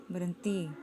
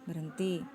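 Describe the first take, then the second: The two takes are said the same way.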